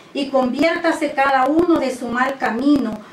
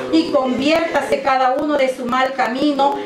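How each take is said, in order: The two takes are said the same way.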